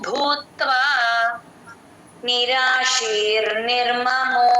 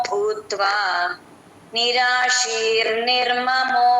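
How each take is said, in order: The two takes are said the same way.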